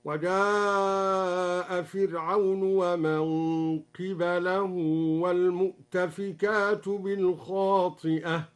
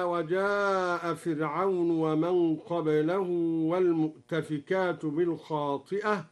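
First: "قبله" as qibalahu, i after qaf, a after ba; very slow recitation with "قبله" said qibalahu; qibalahu reading. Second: Said in the usual way. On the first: Shown as a demonstration. Sheikh demonstrates al-Duri's reading, "قبله" said qibalahu. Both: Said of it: "قرأ الدوري بكسر القاف وفتح الباء".

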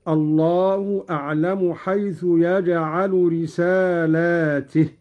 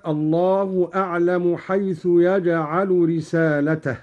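First: «رسالاته» with a long alif after the lam and a kasra on the ta; plural reading. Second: Said in the usual way. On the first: Shown as a demonstration. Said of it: "بمد اللام وكسر التاء هكذا". («رسالاته» بمد اللام وكسر التاء) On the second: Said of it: "بمد اللام وكسر التاء".

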